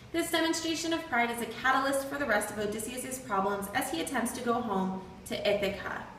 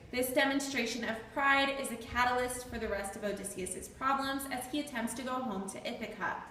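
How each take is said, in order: No difference in how they are said.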